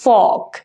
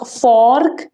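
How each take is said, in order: First: The r sound is left silent in the word. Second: The r sound is pronounced in the word. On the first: The speaker calls it right. "आर silent है" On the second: The speaker calls it wrong. "It's not फॉर्क"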